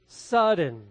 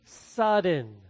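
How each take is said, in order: Both takes have the same delivery.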